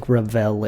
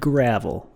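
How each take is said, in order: First: It is not said like the road-surface word. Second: It is said like the road-surface word. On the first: The speaker calls it right. "I know that it's pronounced the Gravel Institute" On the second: The speaker calls it wrong. "I said gravel, like the road I grew up on"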